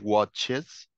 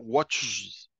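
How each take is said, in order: First: An extra syllable comes before the final s. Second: The s is added directly after the ch. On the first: The speaker calls it right. "Entonces, watches" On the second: The speaker calls it wrong. "no se puede colocar watches, porque la S pronunciada al lado de la ch directamente no suena"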